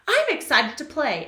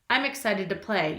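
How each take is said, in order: First: It is said with lively excitement. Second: It is read in a plain flat voice.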